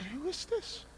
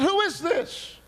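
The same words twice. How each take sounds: First: High, soft question; small, high voice questioning the unknown; hushed questioning. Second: High, loud question; alarmed demand. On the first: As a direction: ask quietly in a raised pitch, rising at the end. Asks the unknown voice who it is. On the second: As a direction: cry it out at a much higher pitch. Demands the unknown voice identify itself. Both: Retold or imitated.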